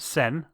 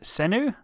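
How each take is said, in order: First: The name is said with a French pronunciation. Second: The name is said with a Dutch pronunciation. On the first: "if you're French you pronounce it" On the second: "if you're Dutch you pronounce it"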